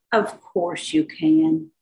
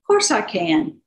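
First: Slow, lightly mocking "Of course you can"; teasing echo. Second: Said in the usual way. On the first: Healer echoes the deputy's words back, slow and teasing. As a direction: stretch it out slowly, gently teasing.

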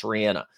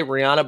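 First: Lower, quick Rihanna with short "a" in the middle; correct pronunciation. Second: Rihanna with an "ah" middle vowel; common pronunciation. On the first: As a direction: say Rihanna as "ree-ANN-uh". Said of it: "it's actually pronounced Rihanna". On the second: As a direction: say Rihanna as "ree-AH-nuh". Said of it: "I think we all say [name]". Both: Shown as a demonstration.

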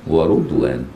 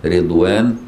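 First: Slow ورضوان pronounced "wa-Rudwan"; the ر in ورضوان takes "ru", said carefully; damma on ر. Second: Slow رضوان pronounced "Ridwan"; first syllable of رضوان is "ri", drawn out carefully; kasra on ر. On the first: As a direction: put a short u after the ر in ورضوان. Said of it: "أو بضمها". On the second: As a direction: put a short i after the ر in رضوان. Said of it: "بكسر الراء". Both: Shown as a demonstration.

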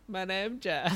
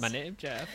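First: High goofy "My name Jeff"; meme voice. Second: Silly "My name Jeff" meme voice. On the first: Retold or imitated. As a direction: pitch it up like the meme. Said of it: "and I'll be like". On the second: Pretend. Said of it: "I've been doing that at work lately".

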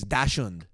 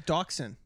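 First: Dachshund said slowly, German-style "tash-hoont"; German accent. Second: Dachshund said as "dock-sun"; anglicized Dachshund. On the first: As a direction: give Dachshund a careful German pronunciation. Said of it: "if you're gonna say it in a German accent, accent, it's Dachshund". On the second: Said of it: "if you're gonna say it in a German accent". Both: Shown as a demonstration.

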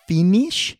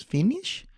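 First: High, louder questioning lady; old masseuse voice. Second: Put-on high questioning accented lady; masseuse voice. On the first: Retold or imitated. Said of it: "a sixty-year-old going". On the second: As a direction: imitate the masseuse asking.

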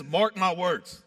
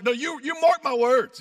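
First: Said in the usual way. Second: High, loud, combative retort; acted fired-up confrontation, raised voice; picking a fight. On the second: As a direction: throw it down like a challenge. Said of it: "He's, like, picking a fight".

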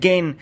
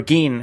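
First: Gein said as "gain", with a long A; alternative pronunciation. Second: Gein said as "geen", with a long E; alternative pronunciation. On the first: Film fan unsure of the killer's name, saying Gein as "gain". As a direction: rhyme Gein with "rain". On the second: Film fan offering the other way to say the name, Gein as "geen". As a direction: rhyme Gein with "seen". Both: Real, not acted. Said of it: "however you say his name".

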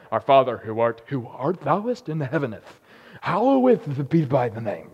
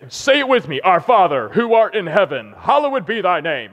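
First: Lower, very slow, pompous archaic intoning; mock King James recital. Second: A locker-room leader chanting the prayer aloud; captain reciting. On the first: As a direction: ham up old-fashioned church solemnity. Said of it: "raised like, that's how you pray". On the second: Retold or imitated. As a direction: lead the team through the words. Captain leads team reciting prayer.

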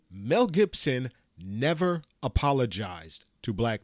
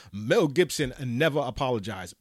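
First: Said in the usual way. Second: Lightly voiced Umar Johnson repeat voice; a hint of Umar Johnson repeating the point; Umar Johnson impression. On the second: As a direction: mimic the lecturer repeating himself, only a little changed. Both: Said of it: "in my Umar Johnson repeat voice".

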